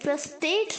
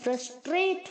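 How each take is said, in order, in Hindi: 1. दूसरे अक्षर में r गिराया जाता है। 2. दूसरे अक्षर में r बोला जाता है। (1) "अरे फ्रस्ट्रेट नहीं होता है" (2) "फ्रस्ट्रेट होता है, ट्रेट। आर बोलना है"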